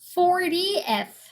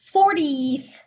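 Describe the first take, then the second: First: The ending has a separate 'eth' syllable. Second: The ending lacks a separate 'eth' syllable. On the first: The speaker calls it right. "E, S 이렇게 읽으셔야 돼" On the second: The speaker calls it wrong. "fortieth 아닙니다"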